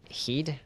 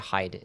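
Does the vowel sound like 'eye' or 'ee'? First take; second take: ee; eye. First: The vowel sounds like 'ee'. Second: The vowel sounds like 'eye'. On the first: "Is it heed?" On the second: "I just say hide"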